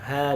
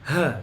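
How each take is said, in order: First: The h is relaxed, from the lower throat. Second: The h is pushed hard from the chest. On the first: The speaker calls it right. "H biasa" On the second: The speaker calls it wrong. "ngeluarin huruf H ini dari dada"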